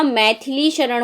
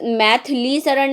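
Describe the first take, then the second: First: Maithili शरण with a clear SH opening शरण; correct pronunciation. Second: Maithili शरण with S instead of SH opening शरण; wrong pronunciation. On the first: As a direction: say शरण as "sharan" after Maithili. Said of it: "Maithili शरण होता है". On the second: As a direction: say शरण as "saran" after Maithili. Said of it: "Maithili शरण नहीं होगा". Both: Shown as a demonstration.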